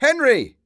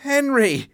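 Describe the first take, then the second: First: High, loud call of a name; shouted name. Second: Cried out. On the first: Victor calling for his missing friend, shouting high. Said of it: "I shouted". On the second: Victor waking, crying out for his friend, high. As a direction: cry the name out high. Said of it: "I cried". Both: Acted.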